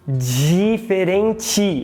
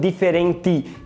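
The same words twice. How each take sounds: First: The d sounds like 'dj' before the i. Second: The d is a plain d sound. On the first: "a gente palataliza falando diferente" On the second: "e não diferente"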